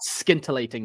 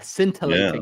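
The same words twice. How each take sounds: First: The word begins with a hard 'skin' sound. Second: The word begins with a soft 'sin' sound. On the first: The speaker calls it wrong. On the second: The speaker calls it right.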